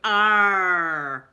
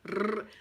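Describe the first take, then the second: First: The R sound is plain, not rolled. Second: The R sound is rolled with the tongue. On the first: The speaker calls it wrong. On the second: The speaker calls it right.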